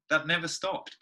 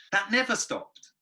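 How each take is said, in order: First: Said in the usual way. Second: That never stopped said higher, slower and louder; emphatic repeat. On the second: Real, not acted. Guest recalls dreading one note, slow emphatic. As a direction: draw out That never stopped, leaning on never.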